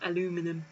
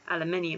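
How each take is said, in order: First: It is said the American way, with four syllables. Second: It is said the British way, with five syllables. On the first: The speaker calls it wrong. "not aluminum" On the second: The speaker calls it right. "we're not America"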